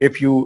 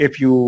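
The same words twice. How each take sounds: No difference in how they are said.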